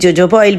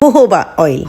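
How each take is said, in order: First: The word is said the locally common way. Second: The word is said the standard original way. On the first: This is how people here often say it. The speaker calls it wrong. "हम यहाँ पर कभी कभी जोजोबा oil भी कह देते हैं" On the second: This is the proper pronunciation. The speaker calls it right. "इसकी सही प्रोनाउंसिएशन होती है"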